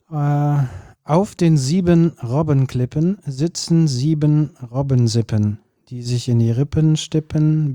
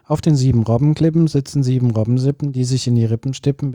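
First: It is spoken at a slower, careful pace. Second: It is spoken at a faster pace. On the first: "Das müsstest du natürlich jetzt noch doppelt so schnell" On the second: "Aber ich müsste es jetzt noch schneller sprechen"

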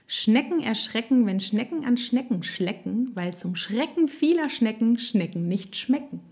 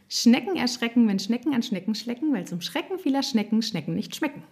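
First: It is said at a normal speed. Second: It is said at a faster speed.

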